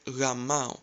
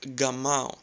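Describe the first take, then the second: First: The first consonant is a soft w-like glide. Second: The first consonant is a hard g sound. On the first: The speaker calls it right. "if you replace G with W, it sounds like gamao, which is closer to the Greek pronunciation" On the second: The speaker calls it wrong. "you would probably pronounce it like gamao"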